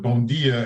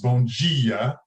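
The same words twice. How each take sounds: First: The d in 'dia' is a hard d. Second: The d in 'dia' sounds like j. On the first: This is the European Portuguese way. "instead of" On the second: This is the Brazilian Portuguese way. "the D switched for a G is Brazilian Portuguese"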